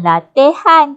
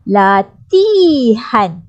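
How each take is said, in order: First: The second syllable has an 'a' vowel. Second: The second syllable has an 'i' vowel. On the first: The speaker calls it wrong. "dengar pun dah pelik dah di sini" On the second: The speaker calls it right. "Latihan bukan A, I"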